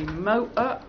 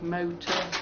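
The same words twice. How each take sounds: First: It is said in a broader accent, vowels drawn out. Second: It is said in a refined, clipped accent. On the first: This is the way people on the site talked. "I learned to say motor" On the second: This is the way the speaker talked before. "instead of motor"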